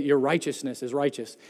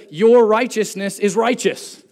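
First: Said in the usual way. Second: Louder, stressing "Your righteousness is righteous"; emphatic reading. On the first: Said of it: "isn't that a bit of a circular argument". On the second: Shown as a demonstration. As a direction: press hard on "righteous" both times, higher. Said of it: "Notice the emphasis here".

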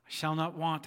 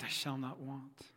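First: Said in the usual way. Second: Softer, slower echoed psalm line. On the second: Shown as a demonstration. Congregation echoing the pastor's psalm line, soft and slow. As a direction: give it back quietly and slowly. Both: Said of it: "asked them to echo the words back to me".

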